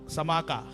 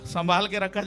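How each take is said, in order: First: The phrase is squeezed into two short syllables. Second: The phrase is said in full, every syllable clear.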